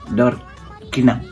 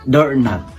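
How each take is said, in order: First: The k in knob is pronounced aloud. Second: The k in knob is silent.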